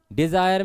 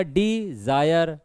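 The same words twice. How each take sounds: First: Said in the usual way. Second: Dzire slowly, as डि and Jair; broken into syllables. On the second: Shown as a demonstration. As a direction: pause after डि in Dzire. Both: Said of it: "Dzire में क्या होगा?".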